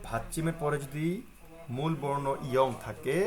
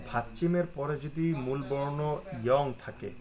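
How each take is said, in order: Both takes have the same delivery.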